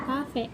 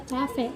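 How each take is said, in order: First: "kafe" said with a hard k, kafe; non-standard form. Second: "cafe" said with a ch sound, chafe; baku spelling. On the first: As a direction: say "kafe" with a plain k sound. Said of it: "kata tidak bakunya kafe". ("kafe" dengan bunyi k, bentuk tidak baku) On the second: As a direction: say "cafe" as chafe, the standard form. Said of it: "kata bakunya cafe". ("cafe" dilafalkan cafe, bentuk baku) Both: Shown as a demonstration.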